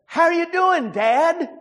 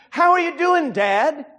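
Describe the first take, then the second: First: Imitating a caller's Hispanic accent, higher and eager; a light Hispanic accent as the scam caller. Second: Imitating a caller's Hispanic accent, higher. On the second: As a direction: Hispanic accent, "How" lifted high. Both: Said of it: "a voice with an Hispanic accent".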